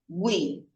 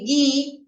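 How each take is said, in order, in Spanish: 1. La u después de la g se pronuncia claramente. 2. La u después de la g es muda. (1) "Aquí pronuncio la U" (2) "Aquí la U es muda"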